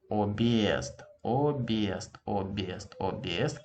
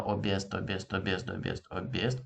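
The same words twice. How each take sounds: First: "объезд" said without the hard sign, as "обиезд", vowel merged. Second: "объезд" with a clear break before е, "об-езд"; with hard sign. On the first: Teacher shows "объезд" wrongly, as if the hard sign were missing. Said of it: "It would sound as". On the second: Teacher repeats the correct "объезд" with the hard-sign break. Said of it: "Can you hear?". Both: Shown as a demonstration.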